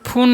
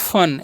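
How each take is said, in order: First: The vowel is a long 'oo' sound. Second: The vowel is a short 'uh' sound. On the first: The speaker calls it wrong. "इसे फून नहीं पढ़ना है" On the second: The speaker calls it right. "यू का उच्चारण अ ही रखना है"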